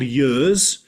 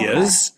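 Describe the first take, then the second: First: Said the Swansea way, starting with a y sound. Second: Said the non-Swansea way, without a y sound. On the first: "If I spoke to somebody in Swansea, these are called years" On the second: "not ears"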